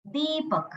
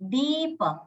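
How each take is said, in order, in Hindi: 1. पहला स्वर लंबा है। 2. पहला स्वर लंबा है।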